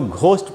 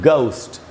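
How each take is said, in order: First: It starts with a breathy aspirated g. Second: It starts with a plain hard g. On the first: The speaker calls it wrong. "हम लोग तो इसको घोस्ट पढ़ते हैं ना" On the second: The speaker calls it right. "It sounds like a hard जी"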